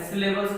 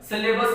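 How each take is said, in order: First: सिलेबस said as syllables, with -bls at the end; the word syllables. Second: सिलेबस said as syllabus, ending in a plain -bus; the word syllabus. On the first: Teacher correcting to the intended word, सिलेबस as syllables. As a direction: put an l before the final s in सिलेबस. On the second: Teacher ruling out the misheard word, सिलेबस as syllabus. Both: Shown as a demonstration. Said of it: "सिलेबस नहीं बोला मैंने, सिलेबस का".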